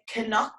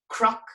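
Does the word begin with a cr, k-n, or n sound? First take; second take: k-n; cr. First: It starts with a hard c, then n. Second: It starts with a c followed by r. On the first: It is how Dublin, Cork and Galway speakers say it. "They pronounce this hard C and the hard N" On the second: It is how Ulster speakers say it. "In Ulster, that's pronounced like a C R sound"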